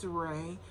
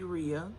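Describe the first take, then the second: First: The name is said to sound like Ray. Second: The name is said to sound like Rhea. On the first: This is how the characters say it. "the way the characters kind of pronounced it was was like Ray" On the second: This is how the reader said it while reading. "that's how I was pronouncing it"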